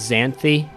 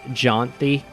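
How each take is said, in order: First: The name begins with a 'z' sound. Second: The name begins with a 'j' sound. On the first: The speaker calls it wrong. "I pronounced her name as Xanthi before" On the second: The speaker calls it right. "it's actually pronounced Jonthi"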